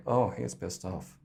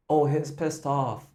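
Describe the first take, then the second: First: Muttered glance-back remark; looking back. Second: A throwaway aside about the singer; half-spoken remark. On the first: Shown as a demonstration. Coach shows how to look back and say it. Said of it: "look back and go like". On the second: Retold or imitated. Coach voices the bracketed aside. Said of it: "the bracketed one is like".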